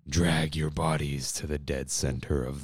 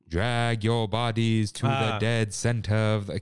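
First: It is said plainly in a deepened voice. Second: It is said with a put-on accent. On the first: The speaker calls it right. "just deepen your voice" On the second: The speaker calls it wrong. "I don't like when they do the accent"

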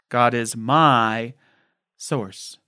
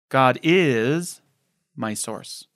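First: The word "my" carries the main stress. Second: The word "is" carries the main stress.

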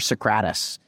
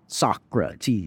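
First: The name is pronounced in an unusual way. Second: The name is pronounced in the usual way. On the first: The mistake is made on purpose to provoke comments. The speaker calls it wrong. "I'll mispronounce words on purpose" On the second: Commenters correct the mistake. The speaker calls it right. "they'll phonetically spell it out"

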